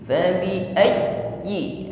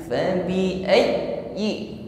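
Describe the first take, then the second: No difference in how they are said.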